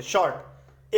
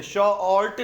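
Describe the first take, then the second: First: Said in the usual way. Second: "शॉर्ट" pulled apart into sho-ort; broken in two. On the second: Shown as a demonstration. Teacher demonstrates the unwanted split word, broken in two. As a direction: say "शॉर्ट" as two drawn-out pieces. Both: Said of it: "बिना तोड़े बोले".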